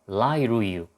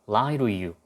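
The two takes are said the same way.

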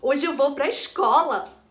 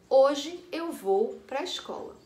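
First: It is said in a happy, joyful tone. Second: It is read flatly, with no emotion. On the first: "uma certa intenção de alegria" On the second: "lida sem nenhuma intenção"

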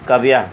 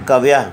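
No difference in how they are said.

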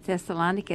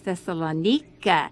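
First: The name is said the usual English way. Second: The name is said the local Greek way. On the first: The speaker calls it wrong. "they don't pronounce it Thessalonica" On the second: The speaker calls it right. "it's Thessalonica"

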